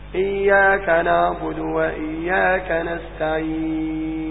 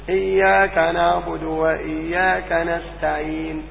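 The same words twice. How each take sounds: First: The final long vowel is held for six counts. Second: The final long vowel is held for two counts. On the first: "وستة" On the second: "تقف بحركتين"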